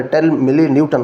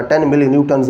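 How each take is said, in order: First: Said in the usual way. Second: "न्यूटन्स" with an added final s sound; plural ending. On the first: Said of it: "कहना है". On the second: Shown as a demonstration. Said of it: "ऐसे नहीं कहना".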